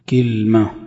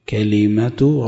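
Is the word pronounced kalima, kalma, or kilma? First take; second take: kilma; kalima. First: Front i first vowel, no vowel after the l. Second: Open first vowel, an i vowel after the l. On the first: "بكسر الكاف وسكون اللام" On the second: "كلمة ربك بفتح الكاف وكسر اللام"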